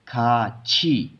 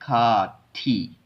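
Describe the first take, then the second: First: The second syllable starts with a 'ch' sound. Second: The second syllable starts with a 't' sound. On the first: The speaker calls it right. "इसको हम ऐसे पढ़ते हैं खा छी" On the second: The speaker calls it wrong. "इसको पढ़ना चाहिए खा थी"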